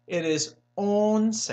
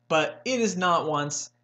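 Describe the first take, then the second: First: "once" slow, Spanish "on-seh". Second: "once" said English "wunce". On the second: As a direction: say "once" like once upon a time. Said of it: "like once upon a time". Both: Shown as a demonstration.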